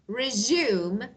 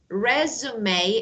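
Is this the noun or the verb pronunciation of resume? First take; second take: verb; noun. First: It uses the verb pronunciation of the word. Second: It uses the noun pronunciation of the word. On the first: To start something again. "Resume is verb, means to start something again" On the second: A document listing work experience. "resume is noun. That means your C V"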